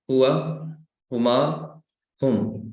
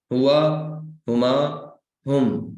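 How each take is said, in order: First: Said in the usual way. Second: हुआ, हुमा, हुम in one steady beat with no stop, हुआ said louder; rhythmic recital. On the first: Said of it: "हुआ से शुरू करते हैं". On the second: Shown as a demonstration. Teacher shows students to recite हुआ, हुमा, हुम in one rhythm. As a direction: chant हुआ, हुमा, हुम evenly without pausing. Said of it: "ये तीन एक रिदम में बोलने हैं".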